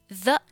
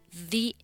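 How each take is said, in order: First: The word ends in a short 'uh' vowel. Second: The word ends in a long 'ee' vowel.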